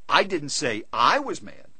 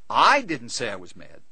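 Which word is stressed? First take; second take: second I; first I. First: The stress is on the second I. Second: The stress is on the first word, I. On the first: A different person was the one who was mad. "I said he was mad" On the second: Someone else said it. "He said I was mad"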